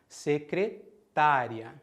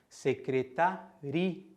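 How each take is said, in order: First: The stress falls on the syllable ta. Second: The stress falls on the syllable ri. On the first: It refers to the profession, a secretary. "usamos a palavra sem acento para falar da profissão" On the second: It refers to the place, a secretariat. "Já a palavra com acento se refere ao lugar"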